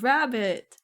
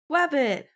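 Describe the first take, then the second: First: The first sound is a clear R. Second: The first sound is a W, not R. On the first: The speaker calls it right. "they actually pronounced the R" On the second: The speaker calls it wrong. "I did a wabbit for the other kids"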